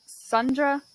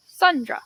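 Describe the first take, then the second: First: Said in the usual way. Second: Put-on weird Sundra accent. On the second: Finding Sundra's voice, in a weird accent. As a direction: give the name an odd accent. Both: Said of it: "what is your accent again?".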